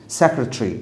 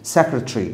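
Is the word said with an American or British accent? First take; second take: British; British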